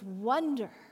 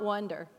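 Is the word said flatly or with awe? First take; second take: with awe; flatly. First: The word is said with a sense of awe. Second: The word is said flatly, without feeling. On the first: The speaker calls it right. "you've got to say it like wonder" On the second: The speaker calls it wrong. "It's not wonder"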